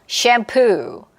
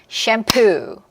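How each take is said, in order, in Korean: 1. 강세는 두 번째 음절에 있어요. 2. 강세는 두 번째 음절에 있어요.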